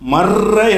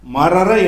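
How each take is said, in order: First: The two r sounds merge into one long r. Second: The two r sounds are separated by a vowel. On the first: The speaker calls it right. "மர்ர என்று சொல்ல வேண்டும்" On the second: The speaker calls it wrong. "மரர என்று சொல்லாம"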